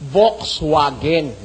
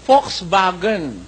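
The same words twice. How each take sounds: First: It starts with V and keeps a W sound. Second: It starts with F and uses V for W. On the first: "As it was spelled, dapat supposedly, ang pronunciation niyan" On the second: "ang pronunciation diyan ng mga mismong Aleman ... itong V nagiging F, at itong W nagiging V"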